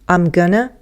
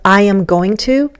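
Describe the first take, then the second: First: The words are reduced and run together casually. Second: Every word is said fully and separately. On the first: "even if I speak casually, the I'm is going to change to um" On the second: "Instead of I am going to"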